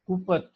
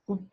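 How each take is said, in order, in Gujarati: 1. p અને t ની વચ્ચે એક વધારાનો સ્વર સંભળાય છે. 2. p અને t સ્વર વગર જોડાયેલા છે. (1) "ગુપત શબ્દ એકદમ દેશી વાપર્યો છે" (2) "આપણે ગુપ્ત કહીએ"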